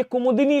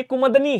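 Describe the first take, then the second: First: कुमुदिनी as "kumu-di-ni"; correct, vowel kept. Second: कुमुदनी as "kumud-ni"; wrong, vowel dropped. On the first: Teacher correcting students, कुमुदिनी as "kumu-di-ni". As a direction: sound the i after d in कुमुदिनी. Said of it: "लिखा जाता है". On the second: Teacher showing students the error, कुमुदनी as "kumud-ni". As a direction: run d into n in कुमुदनी. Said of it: "कुमुदनी नहीं होता". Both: Shown as a demonstration.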